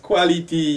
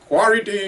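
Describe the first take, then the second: First: It is said plainly with a clear L. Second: It is said with R instead of L.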